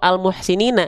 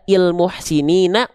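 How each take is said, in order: First: The word begins with an a vowel. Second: The word begins with an i vowel. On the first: The speaker calls it right. "pasti fathah" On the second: The speaker calls it wrong. "hamzah wasolnya dibaca il muhsinina"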